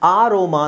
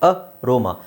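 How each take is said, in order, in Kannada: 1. ಮೊದಲ ಸ್ವರ ದೀರ್ಘ, 'aa' ತರ. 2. ಮೊದಲ ಸ್ವರ ಹ್ರಸ್ವ, 'a' ತರ. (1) "ಅಂತ ಹೇಳಲ್ಲ" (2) "ಎ ಸಪ್ರೇಟಾಗಿ ಹೇಳ್ತೀವಿ"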